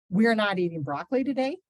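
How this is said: It is said as a forceful exclamation.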